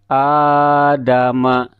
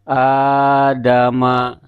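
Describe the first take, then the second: The two takes are said the same way.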